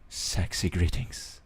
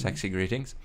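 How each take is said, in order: First: It is said in a put-on seductive voice. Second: It is said in an ordinary speaking voice.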